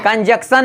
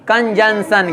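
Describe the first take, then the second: First: कंजंक्शन without the middle nasal, "kan-jak-san"; wrong pronunciation demo. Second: कंजंक्शन with a middle nasal, "kan-jan-san"; corrected pronunciation. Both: Shown as a demonstration. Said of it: "कंजंक्शन नहीं, कंजंक्शन".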